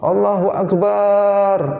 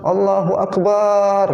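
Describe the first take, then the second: Both takes have the same delivery.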